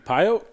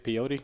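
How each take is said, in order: First: It is said like the place name Pyote. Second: It is said like the word peyote. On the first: The speaker calls it right. "oh, that's how you say it" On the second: The speaker calls it wrong. "I used to say peyote"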